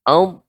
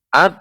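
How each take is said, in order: First: The consonant is made with the tongue edges. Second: The consonant is made with the tongue tip. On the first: The speaker calls it right. "nah ini bagian tepi lidah" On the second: The speaker calls it wrong. "Adapun ujung, suaranya akan seperti ini"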